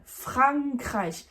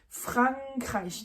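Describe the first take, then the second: First: The first vowel is oral, with the N sounded. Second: The first vowel is oral, with the N sounded.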